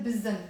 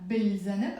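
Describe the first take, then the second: First: Bil zanb said as biz-zaneb, no l; dropped article. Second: Bil zanb with a clear l before the z; pronounced article. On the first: Teacher repeats the correct form, l dropped. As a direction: leave out the l in bil zanb, doubling the z. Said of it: "I said". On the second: Teacher shows what was avoided, l pronounced. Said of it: "So I didn't pronounce the alif lam". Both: Shown as a demonstration.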